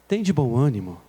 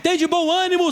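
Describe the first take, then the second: First: It is said softly and gently, with low energy. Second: It is said loudly and forcefully, with high energy. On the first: The words would not reach frightened people. The speaker calls it wrong. "eu não creio que Jesus chegou assim" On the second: The words cut through the listeners' fear. The speaker calls it right. "Jesus diz para eles bem enérgico"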